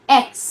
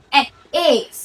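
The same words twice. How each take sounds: First: Short, loud এক্স as English X; corrected English pronunciation. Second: এক্স drawn out from a long এ; old wrong pronunciation. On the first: Teacher giving the letter properly, corrected English pronunciation of এক্স. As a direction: model এক্স with a short opening vowel. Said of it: "এক্স না হয়ে কি?". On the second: Teacher showing how we used to say it, old wrong pronunciation of এক্স. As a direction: stretch the opening vowel of এক্স. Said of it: "আমরা বলতাম". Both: Shown as a demonstration.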